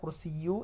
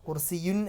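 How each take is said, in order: First: The word ends in the vowel u. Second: The word ends in the sound un. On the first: "കുർസിയു എന്നല്ല വരിക" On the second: "കുർസിയുൻ എന്നല്ല വരിക"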